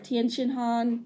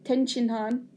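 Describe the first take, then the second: First: The first name sounds like 'tee-en'. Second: The first name sounds like 'ten'. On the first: This is the English version of the name. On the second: This is the Japanese version of the name.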